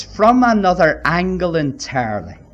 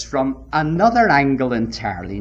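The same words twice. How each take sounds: First: "From another angle entirely" punched out firmly; emphatic repeat. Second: Said in the usual way. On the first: Real, not acted. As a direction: lean hard on "From another angle". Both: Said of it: "Now, can I emphasize this?".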